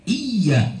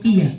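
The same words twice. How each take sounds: First: The y sound is held long and doubled. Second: The y sound is short and single. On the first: Worship is directed to God. The speaker calls it right. "Iya kepada Allah" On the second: Worship is directed to the sun. The speaker calls it wrong. "Kalau iya kepada matahari"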